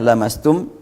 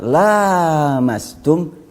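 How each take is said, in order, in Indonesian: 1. Vokal pertama diucapkan pendek. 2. Vokal pertama diucapkan panjang. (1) "Bacaan Hamzah lamastum dibaca pendek" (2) "Itu bacaan la panjang la-nya"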